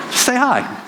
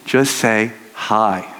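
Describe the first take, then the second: First: Upbeat encouragement. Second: Gentle slow hi. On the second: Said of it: "You, like, tell the boy". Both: Shown as a demonstration.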